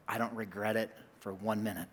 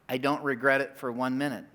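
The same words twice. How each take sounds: First: Low, soft confession; soft, low and heartfelt; hushed sincerity. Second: Said in the usual way. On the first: Real, not acted. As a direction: confide it quietly, dropping well below your usual voice. Sincere confession, then repeated.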